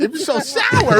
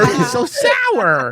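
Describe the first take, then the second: First: High, strained from sourness; eating sour candy. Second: High, slow, shouted sour squeal; eating sour candy. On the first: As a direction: squeal from the sour taste. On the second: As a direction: yell it through puckered lips. Sour, louder take. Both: Pretend.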